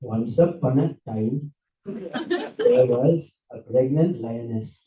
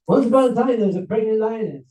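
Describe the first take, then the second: First: Low, slow storytelling guru voice; hammed-up guru, slow and low; Israeli guru. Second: Said in the usual way. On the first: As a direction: draw it out like a backpacker guru. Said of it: "an Israeli backpacker guru. So he said this".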